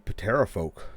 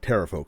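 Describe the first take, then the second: First: The initial P is clearly pronounced. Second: The initial P is silent. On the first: The speaker calls it wrong. "Didn't mean to pronounce that uh, that hard P there" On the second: The speaker calls it right.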